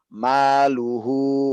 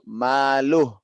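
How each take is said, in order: First: The word ends with a short u vowel. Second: The word ends on a bare h sound. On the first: The reader joins it to the next words. "Kalau disambung baru" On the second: The reader stops at this word. "kalau misalnya saya matikan di situ"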